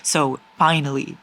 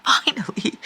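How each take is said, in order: First: Said in the usual way. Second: Breathy laugh on finally; relieved giggle; laughing relief. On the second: Real, not acted.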